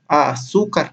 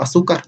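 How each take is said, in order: First: AZÚCAR slowly split as a-zú-car; "Azúcar" drawn out for counting syllables. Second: Said in the usual way. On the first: Shown as a demonstration. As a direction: stretch "Azúcar" into three syllables. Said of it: "tiene tres sílabas". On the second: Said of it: "Azúcar tiene tres sílabas".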